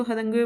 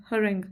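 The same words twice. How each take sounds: First: हरंगवे, the misreading: say every letter as spelled, ending in "gwe"; wrong pronunciation. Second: हरेंग said as two syllables, "ha-reng", no "gwe" ending; correct pronunciation. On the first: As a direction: read हरंगवे the wrong way, sounding out the silent letters. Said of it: "इसको हरंगवे मत पढ़िएगा". (ग़लत उच्चारण: हरंगवे, आख़िर में "ग्वे" बोलते हुए) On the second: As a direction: give हरेंग cleanly, stress on "reng". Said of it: "इसकी प्रोनाउंसिएशन है हरेंग". (सही उच्चारण: हरेंग, दो अक्षरों में "ह-रेंग") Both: Shown as a demonstration.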